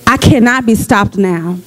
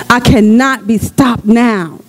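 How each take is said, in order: First: Said in the usual way. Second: Slow, emphatic cannot; slow declaration. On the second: Shown as a demonstration. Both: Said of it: "declare that".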